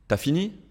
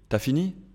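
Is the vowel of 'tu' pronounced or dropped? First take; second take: dropped; dropped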